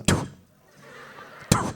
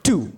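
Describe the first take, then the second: First: Two spat out with a sharp burst of air; Two as a hard unvoiced spit. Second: Said in the usual way. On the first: Shown as a demonstration. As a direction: spit the word Two like spitting on someone. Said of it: "you say it like you're spitting on someone". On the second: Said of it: "can everyone say the word two".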